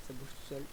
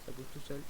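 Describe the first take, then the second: No difference in how they are said.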